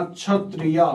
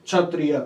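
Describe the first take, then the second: First: क्षत्रिय said plainly, short final; क्षत्रिय with no added final आ; masculine form. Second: क्षत्रिय with a long आ added at the end; feminine form. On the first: (पुल्लिंग रूप, क्षत्रिय बिना आ के) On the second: (स्त्रीलिंग रूप, अंत में आ जोड़कर क्षत्रिया) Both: Shown as a demonstration. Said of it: "ये बढ़ गया स्त्रीलिंग शब्द".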